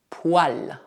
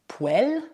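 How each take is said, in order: First: The vowel after the w sound is 'ah'. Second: The vowel after the w sound is 'eh'. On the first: The speaker calls it right. "mas sim poil, ao menos na maioria das regiões francesas" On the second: The speaker calls it wrong. "essa palavra não é pronunciada poêle"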